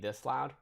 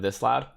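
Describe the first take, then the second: First: It is spoken at a quieter volume. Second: It is spoken at a louder volume. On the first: This is the volume once the stream starts. "I'm gonna like kind of cut back on on talking a little bit" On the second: This is the usual talking volume. "instead of this loud"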